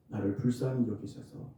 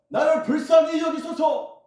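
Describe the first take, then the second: First: It is said in a normal speaking voice. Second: It is said loudly, like a cry.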